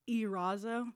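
The name is said with an American accent. The speaker calls it right.

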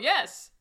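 It ends with a falling, exclaimed tone.

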